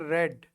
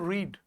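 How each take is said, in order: First: The vowel is a short 'eh' sound. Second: The vowel is a long 'ee' sound. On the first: It is the past or past-participle form. "Second form के रूप में बोलेंगे तो हम बोलेंगे रेड" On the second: It is the present-tense base form. "अगर इसको हम फर्स्ट फॉर्म के रूप में पढ़ेंगे तो हम बोलेंगे इसको रीड"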